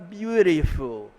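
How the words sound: It is said with an American accent. "o americano fala"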